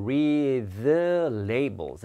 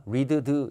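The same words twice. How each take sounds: First: "read the labels" with "rea-" gliding straight into a drawn-out "the"; dropped D. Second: "read the" with the d released as its own syllable, deu-deu; separated D. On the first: Teacher models the linked phrase for students, dropped D. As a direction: skip the d of "read", going slowly from ree into "the". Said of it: "D 발음 하지 말고요". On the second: Teacher shows students what not to do, separated D. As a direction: pronounce both sounds in "read the" separately, choppy. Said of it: "이렇게 하지 마세요". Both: Shown as a demonstration.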